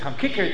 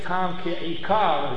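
First: The words run together into one word. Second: The words are said separately and distinctly. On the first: "had a Litvisha accent" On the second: "as he's supposed to say"

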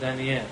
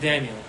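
First: The name is pronounced the Hebrew way. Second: The name is pronounced the English way. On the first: "השם שלו בעברית זה דניאל" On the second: "באנגלית אומרים דניאל"

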